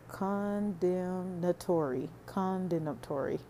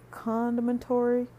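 First: "condemnatory" drawn out slowly, syllable by syllable. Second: Said in the usual way. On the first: Shown as a demonstration. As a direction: spell out "condemnatory" slowly so it lands. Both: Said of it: "I have to say it slow".

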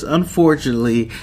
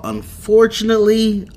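First: Said in the usual way. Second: Dramatic unfortunately. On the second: Shown as a demonstration. Recapping the episode to viewers, hammed-up dramatic high "Unfortunately". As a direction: stretch "Unfortunately" way up high, like a storyteller milking the twist.

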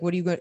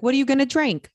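First: Said in the usual way. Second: High, loud mock English accent; imitated English woman's question, pitched up. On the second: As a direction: put on a bright-pitched English accent, raised in volume. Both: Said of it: "Like, in an English accent".

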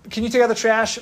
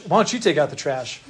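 First: Lightly voiced parent asking, pitched up; parent's request. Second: Mildly acted back talk; mouthing off. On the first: Preacher voices a parent asking a child, lightly acted request. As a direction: ask a chore in a higher voice, as a parent would. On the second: Preacher acts a kid answering a parent, mild mouthing off. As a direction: throw the chore back at a parent, understated. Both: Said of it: "mouthed off to your mom or dad".

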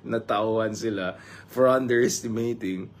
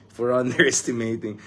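First: Said in the usual way. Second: Laughing through it. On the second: Real, not acted. Vlogger mocking pundits' wrong predictions, laughing. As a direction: chuckle breaking into underestimating.

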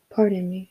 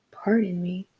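First: Flat, even "Pardon me". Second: Breathy whispered "Pardon me?" in disbelief; incredulous echo. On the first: A narrator's reading. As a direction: say "Pardon me" coolly, no feeling. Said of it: "she said flatly". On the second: Retold or imitated. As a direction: whisper "Pardon me?" as if you cannot believe it. Daughter echoes in disbelief.

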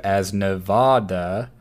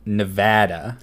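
First: Nevada with a broad ah, slow rising; slow Nevada with an ah vowel; East Coast pronunciation. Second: Nevada with an a as in cat, very slow rising; local pronunciation. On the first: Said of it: "inhabitants of the East Coast refer". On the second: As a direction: draw out Nevada, vowel as in cat. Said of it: "the correct pronunciation". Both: Shown as a demonstration.

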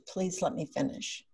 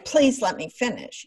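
First: Soft, gentle "Please let me finish"; gentle reminder. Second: Demanding. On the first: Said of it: "that whole tone of being supportive". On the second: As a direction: insist on "Please let me finish" with impatience. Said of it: "we didn't say". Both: Shown as a demonstration.

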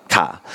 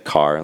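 First: "car" with the R dropped, as "cah"; Aussie pronunciation. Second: Said in the usual way. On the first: Shown as a demonstration. Showing how the kids hear his word, Aussie "car" without R. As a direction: say "car" the Australian way, open vowel, no R. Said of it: "they pick up on it too". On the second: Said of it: "like you say, like, instead of".

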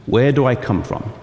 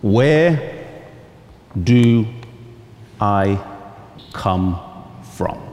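First: Said in the usual way. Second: Each word set apart with long pauses; title read word by word. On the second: Shown as a demonstration. Pastor announcing his sermon title, word by word. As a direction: announce the title slowly, one word at a time. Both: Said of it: "The sermon title this morning is".

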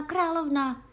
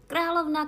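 First: Loud, high repeated alarm cry; cry out again. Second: High, loud alarmed cry. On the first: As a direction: call it out once more in alarm. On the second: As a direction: shout the warning in alarm. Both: A narrator's reading. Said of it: "vykřikl".

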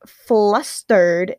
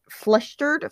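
First: "flustered" very slow and louder, syllables stretched; deliberate reread. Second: "flustered" higher with a rising end; questioning repeat. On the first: Reader retries after stumbling, "flustered" stretched slowly. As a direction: spell out "flustered" by sound, slowly. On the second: Reader doubts her reading, asking "flustered" with a rise. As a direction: query the word "flustered". Stumbles over the word, questioning it. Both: Real, not acted.

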